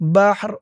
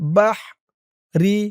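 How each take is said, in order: First: The word ends on a held r sound. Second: The word ends with a short i vowel. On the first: The speaker calls it right. "বলতে হবে বাহর বাহর, রর আওয়াজটা লাস্টে একটু ভাসবে" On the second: The speaker calls it wrong. "রি উচ্চারণটা আর হবে না"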